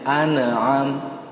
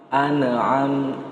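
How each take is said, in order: Both takes have the same delivery.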